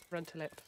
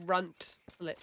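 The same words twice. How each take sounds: First: "Run tulip" with tulip as tyoo-lip; chosen pronunciation. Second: "runt lip" as two clipped syllables, runt then lip; alternative pronunciation. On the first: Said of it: "I would say". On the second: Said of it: "or is it, like". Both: Shown as a demonstration.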